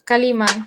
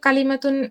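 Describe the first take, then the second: First: The word ends in a bare vowel, no -tun. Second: The word ends with a full -tun ending. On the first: The reader stops at this word. "ওয়াকফ করা হয় অর্থাৎ থামা হয় তাহলে এইভাবে বলা হয়" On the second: The reader continues without stopping. "এখানে কালিমাতুন বলতেই পারি"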